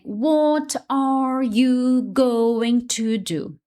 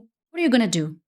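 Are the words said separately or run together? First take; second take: separately; run together. First: Each word is said clearly and separately. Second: The words are run together into one stream.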